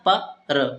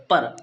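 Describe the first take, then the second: First: "प र" said as two separate syllables with a gap; split syllables. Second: Said in the usual way. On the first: Shown as a demonstration. Teacher showing students the parts of the sound, split apart. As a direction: break "प र" into two sounds, pa then ra. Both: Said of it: "पा में आ का आवाज आ रहा है थोड़ा सा".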